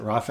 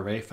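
First: Rafe said as RAH-fay; two-syllable Rafe. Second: Rafe said as RAYF; one-syllable Rafe. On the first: Fan unsure of actor's name, Rafe said RAH-fay. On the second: Fan unsure of actor's name, Rafe said RAYF. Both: Shown as a demonstration. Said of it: "is it Rafe or Rafe".

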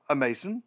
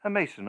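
First: Rising disbelieving A Mason?; incredulous question. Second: "A Mason," said flatly with a falling close; calm assertion. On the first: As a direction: ask "A Mason?" with the tune climbing in doubt. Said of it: "You? Impossible. A Mason?". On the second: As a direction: state "A Mason," firmly, tune falling. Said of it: "I replied". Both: A narrator's reading.

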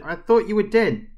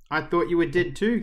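First: High, loud, falling exclamation; shocked outburst. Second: Higher echo, "too" lifted at the end; echoing reply. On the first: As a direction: blurt it out after a fright. Girl's outburst after the rescue. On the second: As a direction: answer back, rising on "too". Rescuer echoes the girl's words. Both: Acted.

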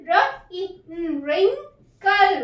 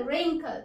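First: Wrinkle split slowly as wrin-kle; slow sounding out. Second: Said in the usual way. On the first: Shown as a demonstration. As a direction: stretch wrinkle syllable by syllable. (wrinkle को धीरे धीरे टुकड़ों में बोलिए) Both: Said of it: "ई का short sound".

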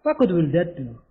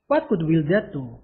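First: Said in the usual way. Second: Much slower, each word separate; slow careful repeat. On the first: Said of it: "first read of the phrase". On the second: Shown as a demonstration. Teacher repeating the sentence slowly for students. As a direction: drill it slowly so they can follow. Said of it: "repeated slowly".

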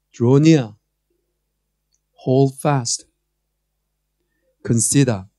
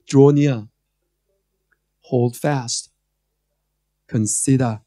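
No difference in how they are said.

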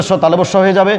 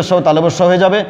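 The two takes are said the same way.

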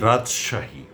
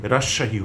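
First: রাজশাহী with a clear জ, রাজ-শাহী; correct pronunciation. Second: রাজশাহী said as রাশাহী, the জ dropped; wrong pronunciation. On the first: Teacher gives the right রাজশাহী to news readers, clearly. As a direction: say রাজশাহী, sounding the জ. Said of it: "আমরা বলবো". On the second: Teacher mimics listeners' mistaken রাজশাহী, lightly. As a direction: demonstrate the common mistake রাশাহী. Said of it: "এটা আমরা কখনো বলবো না". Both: Shown as a demonstration.

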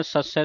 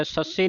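First: ਸੱਸੈ ending in an open "ai" vowel; open-ended ਸੱਸੈ. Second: ਸੱਸੇ ending in a close "e" or "i" vowel; mistaken ਸੱਸੇ. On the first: Teacher modelling the double vowel sign, ਸੱਸੈ ending "ai". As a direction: finish ਸੱਸੈ on "ai", not "e". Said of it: "ਸੱਸੈ ਦਲਾਵਾਂ ਦੇ ਨਾਲ". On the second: Teacher showing what not to say, ਸੱਸੇ ending in close "e". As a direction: narrow the final vowel of ਸੱਸੇ. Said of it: "ਸੱਸੇ ਨਹੀਂ ਕਹਿਣਾ". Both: Shown as a demonstration.

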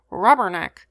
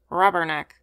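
First: Louder, a screamed parrot cry; screaming parrot. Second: A sullen, grudging parrot squawk, lightly voiced. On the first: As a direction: scream it out like an angry bird. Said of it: "screamed Romeo again". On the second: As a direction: mutter it back like a sulky bird. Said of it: "returned Romeo sullenly". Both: A narrator's reading.

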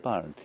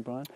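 First: "Byron" said firmly as the fix, falling; "Byron" repeated with settled certainty; corrected name. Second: "Brian" said as a questioning guess, rising; "Brian" with a quick upward question; wrong name. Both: Real, not acted.

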